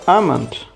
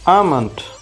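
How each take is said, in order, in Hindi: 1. L की आवाज़ silent रहती है। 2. L की आवाज़ साइलेंट रहती है।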